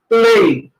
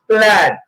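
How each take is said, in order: First: The word ends without a final d sound. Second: The word ends with a clear d sound. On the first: The speaker calls it wrong. "it's not play" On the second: The speaker calls it right. "It's plaid"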